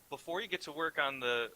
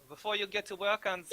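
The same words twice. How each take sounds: First: It is said in the speaker's ordinary accent. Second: It is said in a put-on German accent. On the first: "God, fuck, accent" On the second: "That is German"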